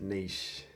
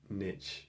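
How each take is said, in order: First: The word does not rhyme with rich. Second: The word rhymes with rich. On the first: "I pronounce it niche" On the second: "if I wanted to make it sound more rhyming with rich, I'd pronounce it niche"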